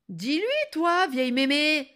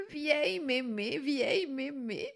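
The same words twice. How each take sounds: First: High, loud, insolent appeal; exasperated demand. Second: Sweetly savouring. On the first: Girl orders grandmother to agree, exasperated. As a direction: demand backing rudely. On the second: Grandmother savours the girl's insult, cooing sweetly. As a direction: repeat it dreamily, as if charmed. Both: Acted.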